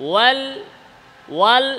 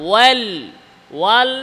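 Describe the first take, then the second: The two takes are said the same way.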